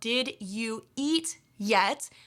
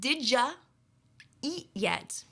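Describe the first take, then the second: First: Each word is said separately and fully. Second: The words run together, 'you' becomes 'ya'.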